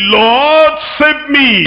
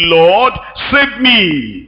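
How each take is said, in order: First: Urgent cry. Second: Slow, drawn-out plea from a sinking man; slow cry for help. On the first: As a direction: call out to the Lord, short and pointed. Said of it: "And he said". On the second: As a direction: let each word stretch out like a desperate prayer. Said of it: "he cried, saying". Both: Retold or imitated.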